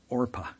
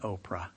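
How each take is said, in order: First: The r sound comes before the p. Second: The r sound comes after the p. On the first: This is the original biblical name. The speaker calls it right. "It is Orpah" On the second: This is the common mispronunciation. The speaker calls it wrong. "Oprah's name is not Oprah"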